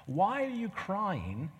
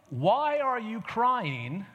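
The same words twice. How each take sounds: First: Gentle rebuke. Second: Blunt question. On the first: Shown as a demonstration. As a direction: ask it mildly, barely scolding. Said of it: "the faintest, mildest, most gentle rebuke". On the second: Retold or imitated. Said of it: "doesn't seem like a very sensitive question".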